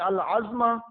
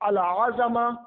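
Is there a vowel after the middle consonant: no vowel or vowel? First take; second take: no vowel; vowel. First: No vowel follows the middle consonant. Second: A vowel follows the middle consonant. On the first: A piece of an animal's bone with meat on it. The speaker calls it wrong. "इज़वा के सुकून के साथ" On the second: Greatness, majesty and grandeur. The speaker calls it right. "हरकत के साथ पढ़ा जाता है"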